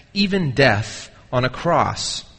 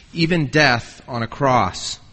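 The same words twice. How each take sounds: Both takes have the same delivery.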